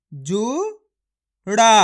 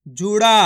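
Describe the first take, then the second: First: जुड़ा stretched slowly, syllable by syllable; slow sounding out. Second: Said in the usual way. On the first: Shown as a demonstration. Teacher sounding out जुड़ा for pupils. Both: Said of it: "मेरे तरीके पे गौर करना है".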